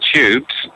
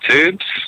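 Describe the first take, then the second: First: Tubes is said with a British pronunciation. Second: Tubes is said with an American pronunciation. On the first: "In England, we actually say the Tubes" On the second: "as the US say"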